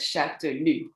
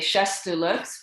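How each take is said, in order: First: No s sound is heard before the t. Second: An s sound is heard before the t. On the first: The speaker calls it right. "you have to pronounce it as Chatelux" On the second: The speaker calls it wrong. "people tend to say Chastellux because that's how you write it"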